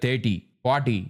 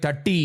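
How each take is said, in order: First: Put-on "thirty, forty" as Chennai CBSE kids say them; "thirty, forty" in CBSE school accent; CBSE kids' pronunciation. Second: "thirty" with a short first vowel and hard Indian T; "thirty" in a Chennai student's accent; Chennai student pronunciation. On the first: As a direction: say "thirty, forty" with a longer first vowel and Indian T. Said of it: "C B S E kids would be". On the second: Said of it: "this guy would say". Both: Shown as a demonstration.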